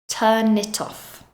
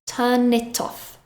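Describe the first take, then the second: First: The three words run together as one. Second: The same.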